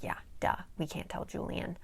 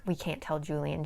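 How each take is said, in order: First: Quiet, dry, mock-obvious echo; sarcastic duh. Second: Said in the usual way. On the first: Daisy mocking Declan's obvious warning, dry and quiet. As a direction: toss it back like it's obvious, softer. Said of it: "She's like". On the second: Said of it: "Declan's basically like".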